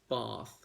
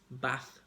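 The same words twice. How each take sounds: First: The vowel is long and drawn out. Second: The vowel is short and flat. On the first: "Long vowels, that's another feature of this um, type of English" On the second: "the accent of Northern England"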